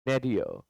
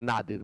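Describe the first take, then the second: First: The first vowel sounds like 'ay'. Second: The first vowel sounds like 'ah'. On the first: The speaker calls it right. "But आपको पढ़ना है नेडियर" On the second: The speaker calls it wrong. "प्रायः लोग इसे नादिर पढ़ते हैं"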